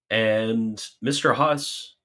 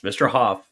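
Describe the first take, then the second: First: "Huss" said with a hissing s ending; wrong name. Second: "Huff" said clearly ending on f; corrected name. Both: Real, not acted. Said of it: "real Huss".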